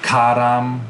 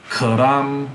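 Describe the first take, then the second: First: "karam" with a full ah in both syllables; two full vowels. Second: "karam" with a weak uh first, full ah second; schwa in first syllable. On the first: Teacher showing students the disallowed word, "karam" with two main ahs. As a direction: say "karam" slowly as KAH-RAHM. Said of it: "'cause that's two main ah". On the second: Teacher showing students an allowed sesquisyllabic word, "karam" with schwa first. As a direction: say "karam" as kuh-RAHM. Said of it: "one of the vowels has to be uh". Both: Shown as a demonstration.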